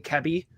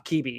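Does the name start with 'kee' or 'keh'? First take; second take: keh; kee. First: The first syllable sounds like 'keh'. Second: The first syllable sounds like 'kee'. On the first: This is the technically correct form. The speaker calls it right. "It's technically" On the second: This is the common mispronunciation. The speaker calls it wrong. "constantly mispronounced as"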